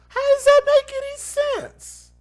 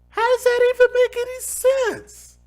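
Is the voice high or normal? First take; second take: high; normal. First: It is said in a high voice. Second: It is said in a normal voice.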